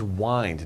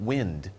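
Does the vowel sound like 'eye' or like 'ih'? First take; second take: eye; ih. First: The vowel is long, like 'eye'. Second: The vowel is short, like 'ih'. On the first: The word means to twist or turn. The speaker calls it right. "This is wind" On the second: The word means moving air. The speaker calls it wrong. "not wind"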